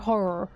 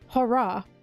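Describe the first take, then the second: First: The word is said with an American accent. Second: The word is said with a British accent. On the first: "And then Americans go horror" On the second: "we go up"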